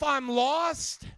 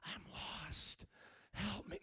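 First: Very loud preacher's cry; loud, mocking proclamation; loud declaration. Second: Hushed, mock-helpless whisper; soft, voiceless self-pity, put on; whispering to yourself. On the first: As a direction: belt it out to the whole congregation. Preacher loudly mocks whispering believers. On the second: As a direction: whisper it low, as a feeble plea. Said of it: "You don't have to whisper to yourself".

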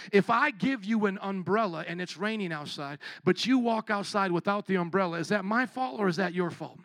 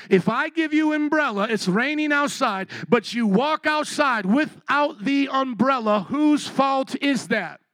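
First: Said in the usual way. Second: Higher, louder and slower, pressing each word; louder, slower repeat. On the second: Shown as a demonstration. Preacher rousing a sluggish congregation, louder and slower. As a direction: drive the question home to a sleepy crowd. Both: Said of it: "let me ask you again".

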